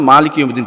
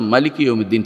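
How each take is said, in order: First: The first vowel of maliki is long. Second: The first vowel of maliki is short. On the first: "আলিফ খাড়া উপরে খাড়া জবর দিছে। এটা এইজন্য যে আপনার আপনি যেন মালিক ইয়াউমিদ্দিন পড়তে পারেন।" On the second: "অন্য কোন কেরাত পড়বে"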